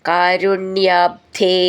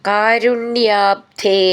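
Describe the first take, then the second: No difference in how they are said.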